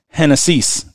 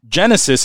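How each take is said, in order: First: The word begins with an H sound. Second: The word begins with a J sound. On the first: "in Spanish, Genesis is pronounced Hennessy's" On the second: "the actual word that's spelled out is Genesis"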